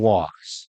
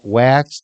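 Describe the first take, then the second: First: The vowel sounds like the one in 'walks'. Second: The vowel sounds like the one in 'wax'. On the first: The speaker calls it right. "The wax is spoken walks, if you say it right" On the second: The speaker calls it wrong. "but it's la- wax to the lax"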